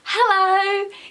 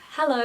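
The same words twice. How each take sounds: First: It is said big and energetic. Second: It is said small and flat.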